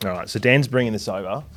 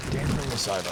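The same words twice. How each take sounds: First: Said in the usual way. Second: Much softer, half to himself; quiet repeat. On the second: Real, not acted. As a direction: drop the voice, say it to yourself.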